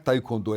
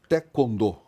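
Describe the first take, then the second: First: The word is pronounced the way it is spelled. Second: The word is pronounced the way Koreans say it. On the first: The speaker calls it wrong. "falava-se taekwondo, mas não é taekwondo" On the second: The speaker calls it right. "é taekwondo"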